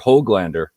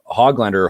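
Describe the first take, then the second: First: The first syllable sounds like 'hoag'. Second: The first syllable sounds like 'hog'. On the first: "I heard was the pronunciation in the scrimmage last night" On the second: "pig-related nicknames"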